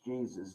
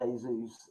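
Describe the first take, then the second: First: The name is pronounced with English sounds. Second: The name is pronounced with Spanish sounds. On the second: "Spanish um"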